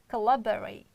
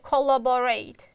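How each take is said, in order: First: The unstressed vowels are reduced to schwa. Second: The unstressed vowels are said as full vowels. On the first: The speaker calls it right. "But other two, we can re reduce" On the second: The speaker calls it wrong. "most students pronounce like collaborate. It's wrong"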